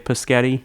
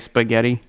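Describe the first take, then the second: First: The first sounds are swapped: paschetti. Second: The sounds are in normal order: spaghetti. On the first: A small child says it this way. The speaker calls it wrong. "Violet would say Paschetti" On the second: This is the usual form. The speaker calls it right. "She could not say spaghetti"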